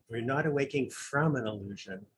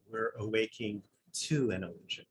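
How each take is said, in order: First: Lingering on from to set up the contrast; stress on from. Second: To marked, then a soft falling close; quietly answering from with to; stress on to. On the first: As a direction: weigh the word from against to. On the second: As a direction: land on the word to, then let it fall. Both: Shown as a demonstration. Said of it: "the subtle importance of prepositions".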